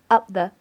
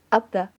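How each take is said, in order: The two takes are said the same way.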